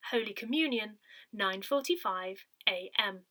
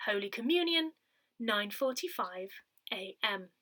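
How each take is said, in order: Both takes have the same delivery.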